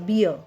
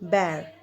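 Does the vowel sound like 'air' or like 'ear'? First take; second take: ear; air. First: The vowel sounds like the one in ear. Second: The vowel sounds like the one in air. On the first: The speaker calls it wrong. "they pronounce bear, uh, beer. Okay, this is not beer" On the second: The speaker calls it right. "We will say this bear"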